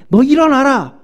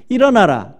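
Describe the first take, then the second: First: High, loud rousing order; captain's shout. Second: A firm, raised 일어나라 as a solemn call; God's command. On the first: Ship captain shouting at sleeping Jonah, loud rousing command. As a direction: yell him awake like a ship captain. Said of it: "선장이 육 절에". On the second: God commanding Jonah to rise, firm solemn call. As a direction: give 일어나라 as a calm divine order, less yelled. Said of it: "하나님이 요나에게 뭐라 그랬냐면". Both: Retold or imitated.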